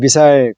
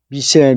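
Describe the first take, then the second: First: The ending is a full 'sile' with a long vowel. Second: The ending is reduced to a short 'sul' sound. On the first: It is used as a verb meaning to launch a missile. "미사일을 발사하다라고 하는 자동사로도" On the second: It is used as a noun. "명사로 미실"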